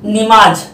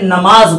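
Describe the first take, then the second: First: The first vowel is an i sound. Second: The first vowel is an a sound. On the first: The speaker calls it wrong. "नून पर जेर" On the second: The speaker calls it right. "तो इसको हमें नमाज बोलना है"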